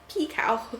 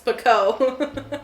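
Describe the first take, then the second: First: The last syllable sounds like the word cow. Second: The last syllable sounds like co, not cow. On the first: The speaker calls it right. "It says it's supposed to be pronounced P. P cow. ... It sounds like she's a, one of the cow villagers" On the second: The speaker calls it wrong. "It's Pico. I am going to pronounce it wrong forever"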